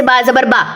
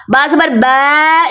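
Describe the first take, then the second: First: Said in the usual way. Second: "बा" drawn into a bai sound at the end; wrong bai ending. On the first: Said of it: "जैसे". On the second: Shown as a demonstration. Teacher showing students the wrong long zabar. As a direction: let the last "बा" slide to "बै". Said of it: "नहीं करना".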